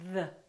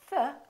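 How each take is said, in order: First: The th is made with the voice buzzing. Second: The th is made without voice, only air. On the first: "The voiced one is" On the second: "the voiceless one is"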